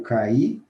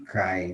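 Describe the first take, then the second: First: The vowels form two syllables, stress on i. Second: The vowels form one gliding syllable, a diphthong. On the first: It is the past tense: I fell. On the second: It is the present tense: he falls.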